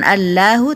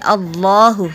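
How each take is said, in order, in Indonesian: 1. Huruf L dibaca tipis dan ringan. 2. Huruf L dibaca tebal dan berat. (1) "bukan Allahu" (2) "harus dibaca tebal"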